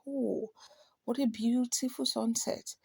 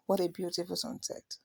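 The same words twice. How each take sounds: First: Soft, appreciative exclamation; mild admiration. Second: Said in the usual way. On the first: Shown as a demonstration. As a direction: gently marvel at the view. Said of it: "this is a kind of admiration". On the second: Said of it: "So it is not just".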